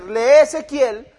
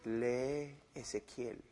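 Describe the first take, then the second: First: "Lee Ezequiel" said slowly with weight on "Lee"; plain emphatic. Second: Deep, hushed, slow imagined voice of God; an inner voice, far softer and lower, drawn out. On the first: Shown as a demonstration. Preacher restates the command, emphatic and slow. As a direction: stress "Lee", unhurried. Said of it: "Si me va a decir". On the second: Pretend. Preacher imagines God telling him to read Ezekiel, deep and hushed. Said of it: "No es una voz audible que me dijo".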